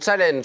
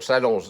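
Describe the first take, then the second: First: The word is pronounced the English way. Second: The word is pronounced the French way. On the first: The speaker calls it wrong. "tu viens d'en faire un là" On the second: The speaker calls it right. "c'est comme ça qu'on dit alors"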